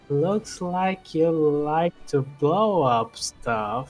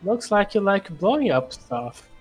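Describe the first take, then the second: First: It is said slowly. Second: It is said at normal speed.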